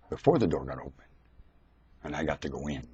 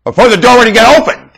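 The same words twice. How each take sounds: First: Quiet retelling. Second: Higher and louder, the line proclaimed; loud preaching take. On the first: Preacher restarting his story for the congregation, saying it quietly. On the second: Preacher restarting his story for the congregation, proclaiming it loud. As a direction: call it out to the whole room. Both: Shown as a demonstration. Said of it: "I'll start where I started".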